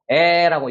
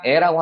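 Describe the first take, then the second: First: The vowel is said forcefully with mouth open. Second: The vowel is said plainly with little force. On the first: The speaker calls it right. "힘을 줘서 에라고" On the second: The speaker calls it wrong. "그냥 에라고 하지 마시고"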